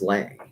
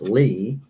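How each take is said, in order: First: The name ends in an 'ay' vowel. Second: The name ends in an 'ee' vowel. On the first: "she would say no, it's Lay" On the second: "her middle name was Lee"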